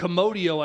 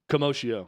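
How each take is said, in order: First: The middle sounds like the word Komodo. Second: The middle sounds like the word commotion. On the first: "I think Komodo dragon" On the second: "like commotion"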